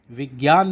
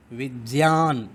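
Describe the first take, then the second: First: विज्ञान said as "vigyan", with a hard g before y; the mispronunciation, vi-gyaan with a g; wrong pronunciation. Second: विज्ञान said as "vijyan", with j-y in place of g-y; the right way, vi-jyaan, no hard g; correct pronunciation. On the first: Teacher to students, showing the mistake: विज्ञान as vigyan. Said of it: "विज्ञान नहीं बोलेंगे". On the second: Teacher to students, giving the right form: विज्ञान as vijyan. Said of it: "सही pronunciation, उच्चारण है वो है ज्या". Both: Shown as a demonstration.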